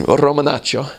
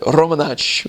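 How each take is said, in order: First: "Romanaccio" said in full, with every syllable and the final o; full Italian pronunciation. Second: "Romanaccio" cut short to "Romanacc'", dropping the final o; clipped Roman pronunciation. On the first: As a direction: pronounce "Romanaccio" completely, the Italian way. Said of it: "or they just kind of abbreviate it". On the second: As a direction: clip the end off "Romanaccio", Roman style. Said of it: "which is how they say it in Roman". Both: Shown as a demonstration.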